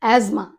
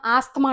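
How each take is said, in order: First: ఆస్మా with a z sound and no th; correct pronunciation. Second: ఆస్తమా with the th sounded; common wrong pronunciation. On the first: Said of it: "that is asthma". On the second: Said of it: "That's not asthma". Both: Shown as a demonstration.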